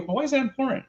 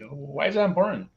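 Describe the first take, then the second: First: High-pitched feigned cluelessness; acting dumb. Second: Lightly feigned puzzlement, a little higher; acting dumb. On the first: Teacher questions student about prototype, acting dumb. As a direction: play dumb, pitch right up. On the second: Teacher tests student's reasoning, playing dumb. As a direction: play innocent, as if clueless. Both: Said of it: "I'm gonna act dumb here".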